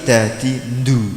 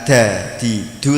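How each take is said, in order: First: The last syllable starts with a nasal nd. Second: The last syllable starts with a plain d. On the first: The speaker calls it wrong. "tapi da di ndu" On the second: The speaker calls it right. "bukan da di du"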